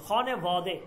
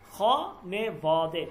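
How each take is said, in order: First: Said in the usual way. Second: খনে বদে drawn out very slowly, syllable by syllable; slow demo. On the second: Shown as a demonstration. Teacher models the Persian word for students, very slowly. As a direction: stretch খনে বদে so students hear every sound. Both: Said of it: "এটার উচ্চারণটা আমরা দেখি".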